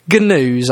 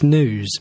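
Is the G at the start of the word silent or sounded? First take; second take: sounded; silent. First: The G at the start is sounded. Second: The G at the start is silent. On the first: "if you're going to say the spelling" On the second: "to give you the correct pronunciation"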